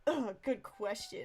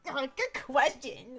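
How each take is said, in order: First: It is said in a plain, calm way. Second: It is said in a strained, forceful way.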